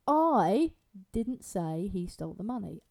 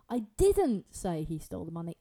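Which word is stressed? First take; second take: I; didn't. First: The word 'I' is stressed. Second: The word 'didn't' is stressed. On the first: Someone else said it, not the speaker. "so let's change it to I" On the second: The speaker denies having said it. "Put the emphasis on didn't"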